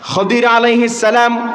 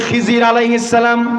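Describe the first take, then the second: First: The name is pronounced with a d sound. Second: The name is pronounced with a z sound. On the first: This is the original form of the name. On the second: This is how local speakers say the name.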